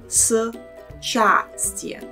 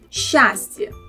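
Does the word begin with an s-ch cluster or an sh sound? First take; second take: s-ch; sh. First: It begins with an s sound followed by ch. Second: It begins with a single sliding sh sound. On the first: The speaker calls it wrong. "difficult to say it like счастье and move the tongue from a position for a sound s to ch" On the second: The speaker calls it right. "the tongue slides with sh sound"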